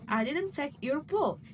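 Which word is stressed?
book. The word book carries the main stress. Something else was taken. "implying you took something else"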